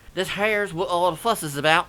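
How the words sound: It is said in an exaggerated twangy accent. "some over-the-top twangy attempt"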